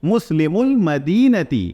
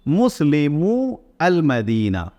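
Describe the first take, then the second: First: The words are linked into one smooth run. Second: The words are said separately, not linked.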